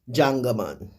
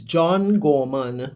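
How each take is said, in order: First: The words are blurred together into one word. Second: Each word is said fully and separately.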